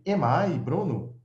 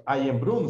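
First: Am I Bruno said slowly as a question; slow, clear question Am I Bruno; slow teacher demo of a question; question tune. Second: Said in the usual way. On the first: Shown as a demonstration. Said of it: "se eu quisesse fazer uma pergunta".

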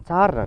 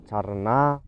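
First: ЦАрина with high, punched ЦА; stress on first syllable. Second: ЦаринА with long final НА; stress on last syllable. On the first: (наголос на перший склад: цАрина) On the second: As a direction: draw out the end of царинА. (наголос на останній склад: царинА) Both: Shown as a demonstration. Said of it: "куди падає наголос".

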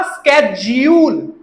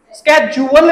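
First: स्केड्यूल as slow "SKED-jool"; two beats in स्केड्यूल, long "jool"; American schedule. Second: स्केड्यूल as "SKED-ju-wal"; wrong schedule pronunciation. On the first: Teacher modelling American usage, स्केड्यूल as "SKED-jool". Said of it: "American वा". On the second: Teacher showing the mistake, स्केड्यूल as "sked-ju-wal". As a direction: add a "wal" beat to स्केड्यूल. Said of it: "स्केड्यूल नहीं". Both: Shown as a demonstration.

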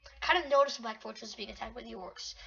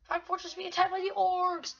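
First: Said in the usual way. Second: Higher, sustained alert voice; mock announcer. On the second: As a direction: announce the attack like a game alert. Reads game alert, then dun dun.

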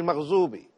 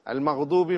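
First: Maghzubi, with "z" in place of the emphatic "d"; mispronounced Arabic. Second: Al-Maghdubi with an emphatic Arabic "d"; correct Arabic pronunciation. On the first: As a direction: mispronounce it as Maghzubi, buzzing "z" after "gh". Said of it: "This is incorrect". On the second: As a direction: say Al-Maghdubi properly, a heavy "d" after the "gh". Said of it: "some Muslims, instead of saying". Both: Shown as a demonstration.

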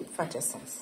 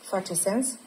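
First: Face sens. answered softer and lower, falling on face; confirming. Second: Face sens? asked with a light rise on sens; asking. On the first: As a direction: settle it quietly as a confirmation, falling. (confirmare liniștită, mai încet și coborât) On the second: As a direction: check in gently, lifting sens at the end. (întrebare ușoară, cu intonație urcată pe sens) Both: Shown as a demonstration.

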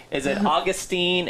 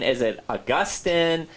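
First: Put-on Augustine said AW-gus-teen, stress on the first syllable, ending in teen. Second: Augustine said uh-GUS-tin, stress on the middle syllable, ending in tin. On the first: Host testing a name during a pronunciation debate, AW-gus-teen. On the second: Host trying the other way to say the name, uh-GUS-tin. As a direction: pronounce Augustine as uh-GUS-tin, a bit slower. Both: Shown as a demonstration. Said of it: "we arguing over is how to pronounce his name".

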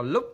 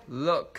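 First: "look" with a tight, short Vietnamese u; mistaken tight U. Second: "Look" with a lax short U gliding toward ơ. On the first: Teacher mimics learners' mistake, "look" with tight rising u. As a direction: say "look" as a curt "lúp" with rising tone. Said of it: "chứ không đọc là look". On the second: Teacher corrects a misread word, "Look" with lax u-ơ vowel. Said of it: "đọc là u ơ nhá". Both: Shown as a demonstration.

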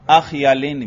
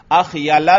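First: Measured अख़यलिन with tanween; munsarif form. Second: Measured अख़यला without tanween; gair munsarif form. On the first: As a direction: close अख़यलिन on i and n. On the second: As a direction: keep अख़यला open on a, no n. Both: Shown as a demonstration. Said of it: "दोनों तरह पढ़ सकते हैं".

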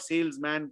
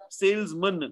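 First: Salesman with a full flat a in man, sales-MAN; wrong salesman. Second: Salesman with the man reduced, SALES-mun; correct salesman. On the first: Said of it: "not salesman". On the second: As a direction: say salesman with a short weak mun at the end. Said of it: "So it's postman". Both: Shown as a demonstration.

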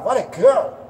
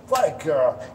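First: Pitched up and louder, rising praise; high excited praise. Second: Said in the usual way. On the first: Shown as a demonstration. Trainer showing owner how to praise, high and thrilled. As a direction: gush over her with delight. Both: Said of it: "You focus on praising your beagle".

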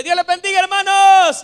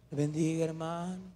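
First: High, loud shout to the congregation; shouted church hello; shouted greeting. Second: Very soft, low, lifeless hello; hushed, unenthusiastic mock greeting; feeble greeting. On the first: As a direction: belt out a hearty greeting at full voice. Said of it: "yo saludo gritando y diciéndole". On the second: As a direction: barely say it, as a listless greeting. Contrast to his shouted greeting. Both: Shown as a demonstration.

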